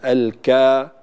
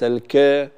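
First: The final vowel is long with mouth open. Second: The final vowel is short and barely opened. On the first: The speaker calls it right. "دائما في الألف نفتح الفم، الكا" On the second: The speaker calls it wrong. "وليس الك"

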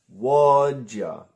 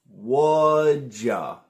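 No difference in how they are said.

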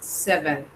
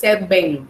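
First: The middle consonant is a v with teeth. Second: The middle consonant is a b-like sound. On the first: The speaker calls it right. "mostrando los dientes ahí" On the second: The speaker calls it wrong. "no V larga, no es seven"

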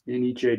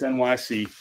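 First: The name is said as one word. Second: The name is said as separate letters. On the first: The speaker calls it right. "[name] pronounces it Aniche" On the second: The speaker calls it wrong. "don't tell me it's NYC"

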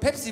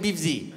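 First: The word is said with clear p sounds. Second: The p sounds are replaced by b sounds. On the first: "wenn du jemanden Pepsi bestellen hörst" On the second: "P und B. Keine Unterschiede"

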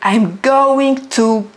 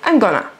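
First: Going to is said in full, with every syllable. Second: Going to is reduced to one quick gonna. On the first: The speaker calls it wrong. "You don't say, I'm going to go. It's too long" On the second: The speaker calls it right. "So we say, I'm gonna"

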